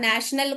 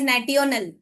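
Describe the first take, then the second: First: The middle consonant is a 'sh' sound. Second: The middle consonant is a 't' sound. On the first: The speaker calls it right. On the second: The speaker calls it wrong.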